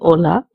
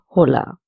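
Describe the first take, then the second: First: The word starts with no h sound. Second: The word starts with an audible h sound. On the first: The speaker calls it right. "It is silent in the Spanish language" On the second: The speaker calls it wrong. "instead of"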